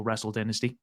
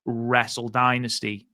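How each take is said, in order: First: "Dynasty" said with first syllable like "din"; short-i DYNASTY. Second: "Dynasty" said with first syllable like "die"; long-i DYNASTY. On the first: Podcast host offering the other way to say it, "Dynasty" with a short i. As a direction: say "Dynasty" as DIN-uh-stee, softer aside. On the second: Podcast host naming the show to co-host, "Dynasty" with a long i. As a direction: say "Dynasty" as DIE-nuh-stee. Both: Shown as a demonstration. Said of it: "depending on how you say it".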